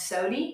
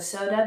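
First: It is said in an Appalachian accent. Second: It is said in a standard American accent. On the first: "becomes sody, like that's old Appalachian" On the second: "So soda becomes"

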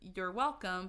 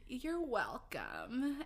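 First: It is said in a plain, ordinary voice. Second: It is said imitating Sadie's distinctive voice.

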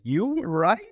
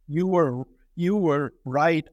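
First: It is read as a sarcastic, incredulous question. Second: It is read as a plain, sincere statement. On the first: The sender mocks the idea of being wrong. "I partly mean that even in the sense of inflection" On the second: The sender admits being wrong. "Reading a telegram from Trotsky that says"

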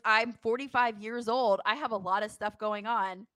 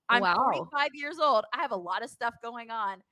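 First: It is said in a plain, matter-of-fact tone. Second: It is said with a sassy, attitude-filled tone. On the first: It is how the remark was actually delivered. The speaker calls it right. "it was" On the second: It is a dramatized version of the remark. The speaker calls it wrong. "He didn't say it with that attitude"

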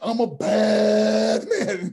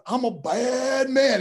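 First: It is stretched out and drawn long. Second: It is said short and quick.

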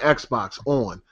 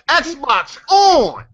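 First: It is said in a calm, quiet voice. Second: It is screamed loudly at the console.

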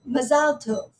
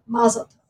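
First: It is said with Israeli Hebrew stress. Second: It is said with American Jewish stress. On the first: "an Israeli might say"

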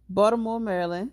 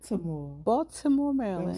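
First: It is said in a local Baltimore accent. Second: It is said carefully, with the t sounded. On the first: "With my Baltimore accent" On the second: "Y'all like how I pronounce the T?"

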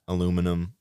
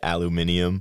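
First: The word is said with four syllables. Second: The word is said with five syllables. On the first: This is the speaker's own Midwest pronunciation. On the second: This is how the teammates say it.

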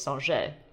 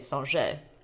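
First: The name is pronounced the French way. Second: The name is pronounced the French way.

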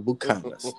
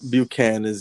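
First: It is said with a Spanish accent. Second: It is said with an English accent.

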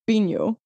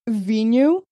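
First: It starts with a B sound, northern style. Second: It starts with a V sound, southern style.

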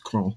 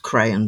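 First: The name is said in one syllable. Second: The name is said in two syllables. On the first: The speaker calls it right. "it's Cron" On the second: The speaker calls it wrong. "often people pronounce that as crayon, but it's not"

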